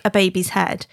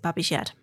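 First: Said in the usual way. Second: "Babby's Yed" with short a and y for h; local pronunciation. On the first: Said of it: "So we call it Babby's Yed". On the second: Shown as a demonstration. Explaining the pudding's name, local "Babby's Yed". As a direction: say "Babby's Yed", Wigan for baby's head. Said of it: "That's how they pronounce it".

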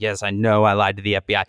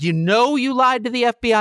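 First: Lower, quick, lightly voiced meek admission; meek defendant. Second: Higher, lightly voiced incredulous judge; a hint of a judge who can't believe it. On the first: Flynn answering the judge, lower, lightly voiced meek admission. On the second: Judge questioning Flynn in court, lightly voiced incredulity.

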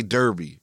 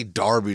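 First: Derby said as DUR-bee; first vowel of Derby r-colored, like "her"; American Derby. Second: Derby said as DAR-bee; first syllable of Derby like "dar"; British-style Derby. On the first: Shown as a demonstration. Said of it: "In our American accent". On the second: Retold or imitated. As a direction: say Derby with an open "ar". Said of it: "You don't have to say Derby".

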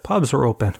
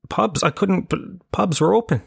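First: Said in the usual way. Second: Higher, startled pitch jump; suddenly realising the pubs are open; surprised realisation. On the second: Real, not acted. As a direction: genuine surprise breaking into the story.

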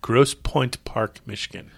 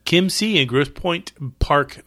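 First: Each word of Grosse Pointe Park drawn out; slow, deliberate. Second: Slow careful reading. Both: Shown as a demonstration. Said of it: "Why is that so hard to say?".

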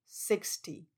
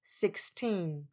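First: Sixty with stress on six, short light ty. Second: Put-on sixteen with teen drawn out, falling; stress on TEEN. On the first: (sixty 重音放在第一音节) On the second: (sixteen 重音放在第二音节 teen) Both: Shown as a demonstration. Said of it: "其他也都是一样".

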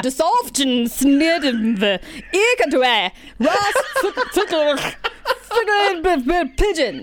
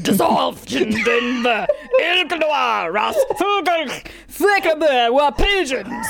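First: Lightly voiced, slow, angry reading of gibberish; half-hearted angry recital; mock angry reading. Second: Slow, higher, shouted mock Russian accent. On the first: Friend reads keyboard-mash notes aloud, mock angry. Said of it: "did I encompass your anger properly". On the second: Reading keyboard-mash notes to friend, mock Russian accent. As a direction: ham up a guttural Russian accent. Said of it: "That was a little more Russian".

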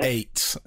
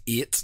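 First: "eight" with a plain English ay vowel; carefully anglicised "eight", clean ay sound; adapted clear pronunciation. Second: "eight" as in Northern Ireland, roughly "ee-it"; broad Northern Irish "eight"; Northern Irish pronunciation. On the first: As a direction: correct "eight" for English listeners, as "ayt". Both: Shown as a demonstration. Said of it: "I have to pronounce eight like eight".

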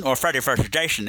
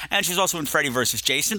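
First: "versus Jason" slurred with SH for S; slushy slurring. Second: Said in the usual way. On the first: Pretend. Podcast host offering a silly alternative film title, slushy slurring. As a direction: say "versus Jason" like "vershush Jashon". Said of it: "Why am I talking like this?". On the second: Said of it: "if you prefer it that way".

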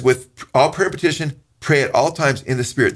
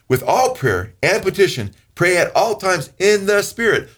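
First: Said in the usual way. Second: Slower, rising to high; emphatic repeat. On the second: Shown as a demonstration. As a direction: lean into it slowly. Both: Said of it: "You catch that".

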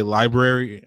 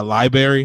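First: Said in the usual way. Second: Library said as "LIE-berry"; library mispronounced "li-berry"; first R dropped. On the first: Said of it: "or no, you say library". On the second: Retold or imitated. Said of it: "she hates when people say library".

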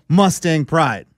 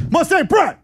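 First: Said in the usual way. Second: High shouted Mustang Pride; yelled slogan. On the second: Retold or imitated. Player yelling the slogan at the door, high shout. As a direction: belt out "Pride" like a chant. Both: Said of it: "you're gonna yell".

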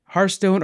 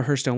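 First: Hearthstone with HART, rhymes with start; first pronunciation of Hearthstone. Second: Hearthstone with HURTH, rhymes with earth; second pronunciation of Hearthstone. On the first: Host offers co-host two pronunciations, HART-stone. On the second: Host offers co-host two pronunciations, HURTH-stone. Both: Shown as a demonstration. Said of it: "Which way do you say it".

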